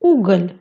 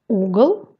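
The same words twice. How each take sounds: First: Уголь with a palatalised final ль; soft final L. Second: Угол with a hard, dark final л. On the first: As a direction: end уголь on a soft л, tongue raised. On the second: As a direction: end угол on an unsoftened л. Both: Shown as a demonstration. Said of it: "La consonne devient mou".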